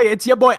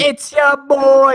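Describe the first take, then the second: First: Snappier repeat of the hype greeting; quick hype-man greeting; quick catchphrase. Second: Slow, louder, higher hype greeting; slow hype-man greeting; drawn-out catchphrase. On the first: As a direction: toss it off fast the second time. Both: Shown as a demonstration.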